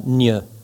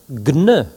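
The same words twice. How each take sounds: First: The g and n merge into one nasal sound. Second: The g and n are pronounced as separate sounds. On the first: The speaker calls it wrong. "et non pas gne" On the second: The speaker calls it right. "comme dans diagnostic"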